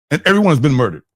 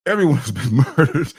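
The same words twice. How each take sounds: First: Said in the usual way. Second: Laughing mid-sentence. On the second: Real, not acted. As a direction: break into a laugh while saying it. Repeats twist, laughing.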